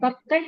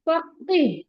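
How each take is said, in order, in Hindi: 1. आखिरी अक्षर में छोटा 'a' स्वर है। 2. आखिरी अक्षर में लंबा 'ee' स्वर है।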